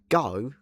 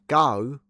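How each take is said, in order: First: The vowel glides like a Cockney 'ow' sound. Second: The vowel glides like a Cockney 'ow' sound.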